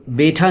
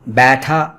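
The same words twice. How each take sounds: First: بیٹھا as 'betha', one long e; wrong pure 'e'. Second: بیٹھا as 'baetha', vowel as in English cat; wrong open 'ae'. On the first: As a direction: say بیٹھا with a single 'ay' vowel, no glide. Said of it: "تو بیٹھا نہیں بولتے ہم". (بیٹھا کو سادہ 'اے' سے، 'بےٹھا') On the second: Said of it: "بیٹھا بھی نہیں بولیں گے". (بیٹھا کو کھلی، بغیر پھسلن 'اَے' سے) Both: Shown as a demonstration.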